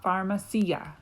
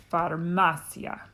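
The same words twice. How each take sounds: First: "pharmacia" stressed on the "ci"; wrong stress. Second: "farmacia" with the stress on "ma"; "farmacia" as far-MA-cia; next-to-last syllable stressed. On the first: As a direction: lean on a long "SEE" in "pharmacia". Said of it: "It's not pharmacia". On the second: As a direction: punch the "ma" in "farmacia", letting "cia" fall away. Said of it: "the next to last syllable gets the emphasis". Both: Shown as a demonstration.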